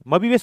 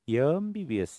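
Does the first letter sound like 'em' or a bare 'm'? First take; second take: bare m; em. First: It begins with a bare 'm' consonant. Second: It begins with a vowel, 'em'. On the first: The speaker calls it wrong. "म-बी-बी-एस म्हणतो का आपण? नाही" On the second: The speaker calls it right. "य अ अ, अ येतं, म येत नाही"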